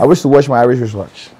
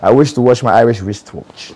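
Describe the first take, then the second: First: The sentence is said fast. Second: The sentence is said slowly. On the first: "As fast as you can" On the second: "you're saying it very slowly"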